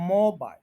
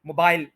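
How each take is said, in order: First: mobile with a strong MO, very light BAIL; stress on first syllable. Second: mobile with a short MO and heavy BAIL; stress on second syllable. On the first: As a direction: put nearly all the weight on MO in mobile. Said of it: "bile जो है उसको बहुत कम बोलें". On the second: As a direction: throw the weight onto BAIL in mobile. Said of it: "bile को आपने ज्यादा energy दे दी". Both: Shown as a demonstration.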